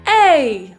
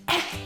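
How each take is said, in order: First: It is said in an ordinary speaking voice. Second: It is said in a soft whisper.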